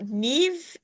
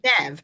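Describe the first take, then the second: First: The name is said the common way. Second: The name is said the character's own way. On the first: This is how the name is usually pronounced. "I know Neve is usually the" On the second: This is how the character herself pronounces it. "She pronounces it"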